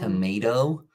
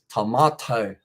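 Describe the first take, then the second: First: It is said with an American accent. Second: It is said with a non-American accent.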